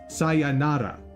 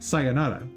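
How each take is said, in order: First: Every syllable is said with equal strong emphasis. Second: The word is said with its ordinary stress. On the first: "with emphasis on every single uh, syllable" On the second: "how most people think to say it"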